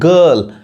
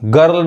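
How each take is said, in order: First: The R sound is left out after the vowel. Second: The R sound is pronounced after the vowel. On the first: The speaker calls it right. "आर नहीं पढ़ाता है" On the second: The speaker calls it wrong. "गर्ल नहीं"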